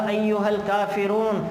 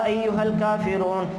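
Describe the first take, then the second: The two takes are said the same way.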